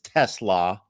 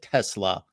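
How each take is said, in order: First: The name is said unlike the car brand. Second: The name is said like the car brand. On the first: The speaker calls it right. "I know it's Tesla. It's not like the car" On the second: The speaker calls it wrong. "if I think I said Tesla"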